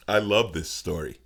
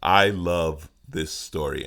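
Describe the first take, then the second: First: Said in the usual way. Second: Slow, drawn-out emphasis; slower take. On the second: Shown as a demonstration. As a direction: linger on each word.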